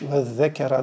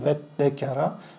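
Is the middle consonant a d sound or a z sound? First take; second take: z sound; d sound. First: The middle consonant is a z sound. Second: The middle consonant is a doubled d sound. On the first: The speaker calls it wrong. "Ve zekera değil" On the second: The speaker calls it right. "Beltek z yerine d gelmiş"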